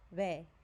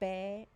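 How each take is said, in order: First: The lips barely touch for a soft b. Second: The lips close fully for a hard b. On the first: The speaker calls it right. "it's like ve, where the lips barely touch" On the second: The speaker calls it wrong. "It's not like be"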